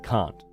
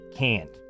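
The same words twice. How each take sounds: First: The vowel is long and open, British-style. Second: The vowel is short and flat, American-style. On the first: This is the form the kids replace. "instead of can't" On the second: This is how many kids of this generation say it. "a lot of kids at my kids' school, for example, say can't"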